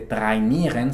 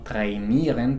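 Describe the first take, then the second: First: It is read as plain German spelling. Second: It is pronounced with an English-like sound. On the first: The speaker calls it wrong. "no se dice" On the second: The speaker calls it right. "sino trainieren porque viene del inglés"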